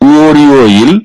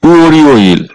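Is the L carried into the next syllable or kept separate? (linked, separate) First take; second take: linked; linked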